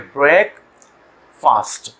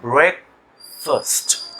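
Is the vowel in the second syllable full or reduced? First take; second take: full; reduced. First: The second syllable has a full 'ah' vowel. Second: The second syllable has a weak, reduced vowel. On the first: The two parts are read as separate words. "जब अलग से पढ़ेंगे तो वो फास्ट होगा" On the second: The two parts are joined into one word. "जब आप दोनों को मिला रहे हैं तो ये बन जाएगा ब्रेक फर्स्ट"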